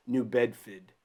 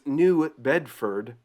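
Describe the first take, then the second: First: New Bedford in a local Massachusetts accent; lightly attempted Boston accent. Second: Said in the usual way. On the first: Shown as a demonstration. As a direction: drop the R in Bedford, "Bedfid", Boston style. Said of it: "can't even do the accent". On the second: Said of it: "but it's New Bedford".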